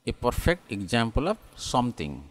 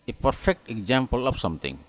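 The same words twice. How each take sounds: Both takes have the same delivery.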